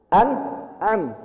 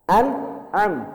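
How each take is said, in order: Both takes have the same delivery.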